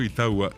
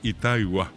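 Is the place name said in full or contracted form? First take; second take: contracted; full. First: The vowels merge into a shorter three-syllable name. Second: The name is said fully, with ita and igua. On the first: This is how people say it nowadays. The speaker calls it wrong. "hoy decimos Itagua" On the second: This is the original, older form of the name. The speaker calls it right. "el otro es Itaigua"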